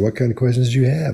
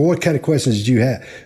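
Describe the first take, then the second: First: The question is asked in a light, casual tone. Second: The question is asked in a pointed, confronting tone. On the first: The question is tossed out lightly with no pressure. The speaker calls it right. "Almost like throwing it out there" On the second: The listener feels challenged or put on the spot. The speaker calls it wrong. "We can't say"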